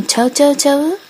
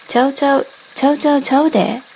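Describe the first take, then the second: First: ちゃうちゃうちゃう？ with a rising question tune at the end, Kansai dialect. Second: ちゃうちゃうちゃうで said quickly with a falling Kansai tune; Kansai denial. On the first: Asking whether the dog is a chow chow, rising Kansai question. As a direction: ask ちゃうちゃうちゃう？ in Kansai dialect, voice lifting on the last ちゃう. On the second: Denying the dog is a chow chow, fast falling Kansai answer. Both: Acted. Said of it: "面白い関西弁も".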